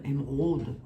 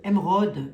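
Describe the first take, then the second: First: Émeraude said with a Lorraine accent, lower pitch. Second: Said in the usual way. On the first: Shown as a demonstration. Vlogger jokes by saying émeraude in her Lorraine accent. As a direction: put a Lorraine twang on émeraude. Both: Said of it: "ouais, mon accent lorrain".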